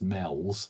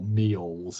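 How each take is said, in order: First: The word is said like 'mells'. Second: The word is said like 'mee-ols'. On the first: This is how it is said in the northwest. "in the northwest it's very clearly pronounced mells" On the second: This is how some people say it. "as some people pronounce it"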